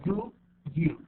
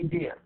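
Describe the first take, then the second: First: Both words are said fully and separately. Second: The words are blended into one short syllable. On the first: "the long one is do you" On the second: "In the reduced one we say dear"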